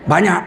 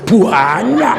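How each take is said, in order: First: The word is said plainly without stretching. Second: The word is stretched with an added 'u' sound. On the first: It only means an ordinary amount. "Itu nggak banyak itu kalau orang Jawa" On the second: It means a really large amount. "Orang Jawa kalau bilang banyak ditambah u"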